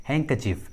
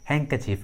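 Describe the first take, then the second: Both takes have the same delivery.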